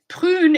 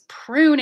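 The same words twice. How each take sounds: First: It is said with a French R sound. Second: It is said with an English R sound. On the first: "prune in French" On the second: "is prune in English"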